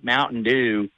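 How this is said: It is said in a Southern American accent. The speaker calls it right. "I always have to do Mountain Dew in more of a Southern accent"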